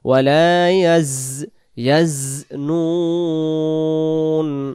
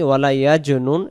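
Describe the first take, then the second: First: The consonant is pronounced like a z sound. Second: The consonant is pronounced like a j sound. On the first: The speaker calls it right. "কিন্তু খেয়াল রাখবো" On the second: The speaker calls it wrong. "এটা জিম হয়ে যাবে"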